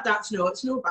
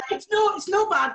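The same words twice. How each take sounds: First: Said in the usual way. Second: High mock Scottish "no bad", rolled and broad; a playful broad Scottish take on "It's no, it's no bad"; Scottish accent put on for a laugh. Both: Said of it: "do your best Scottish accent".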